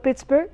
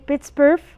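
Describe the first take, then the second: First: The gh is silent and not pronounced. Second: The gh is pronounced as an f sound. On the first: "or as silent" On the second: "we can pronounce gh as if"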